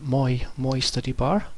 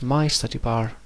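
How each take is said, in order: First: The first word sounds like 'moi'. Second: The first word sounds like 'my'. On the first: The speaker calls it wrong. "now read it Moi study bar" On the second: The speaker calls it right. "it now says my study bar nicely"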